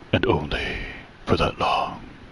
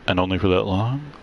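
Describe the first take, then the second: First: It is said in a low, menacing tone. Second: It is said in a plain, neutral tone.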